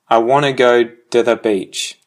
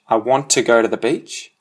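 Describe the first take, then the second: First: 'Want to' is reduced and blended into 'wanna'. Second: 'Want to' is said as two full words. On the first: "which then becomes I wanna go to the beach" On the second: "which becomes I want to go to the beach"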